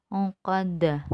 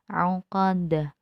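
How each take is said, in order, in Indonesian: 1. Kata itu berakhir dengan konsonan hambat. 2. Kata itu berakhir dengan konsonan hambat.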